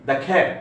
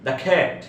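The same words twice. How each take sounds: The two takes are said the same way.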